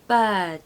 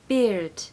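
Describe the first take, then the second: First: The vowel sounds like the one in 'her'. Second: The vowel sounds like the one in 'ear'. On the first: The speaker calls it right. "that's the same sound as inside bird" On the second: The speaker calls it wrong. "We do not want beard"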